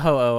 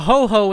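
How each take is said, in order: First: The second syllable starts with no h sound. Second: The second syllable starts with an h sound. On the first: The speaker calls it right. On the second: The speaker calls it wrong.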